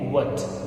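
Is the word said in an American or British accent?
American. The word is said in an American accent. "American accent इसे बोलते हैं वट"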